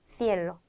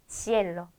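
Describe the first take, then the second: No difference in how they are said.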